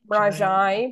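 It is said in the Campidanese form, mrajai. "the word fox in my Sardinian Campidanese is mrajai"

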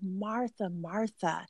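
It sounds gentle and inviting.

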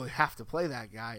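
It is said in a grudging, resigned tone. The team is forced to use him out of necessity. The speaker calls it wrong. "It's not, oh"

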